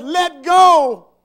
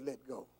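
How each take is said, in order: First: Very loud, high command; booming acted order; commanding shout. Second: Low, very soft divine urging; quiet, lowered instruction; hushed command. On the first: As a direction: thunder it down from heaven. Heaven's voice commands, story climax. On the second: Acted. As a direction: say it gently and quietly, as God. God's words repeated softly.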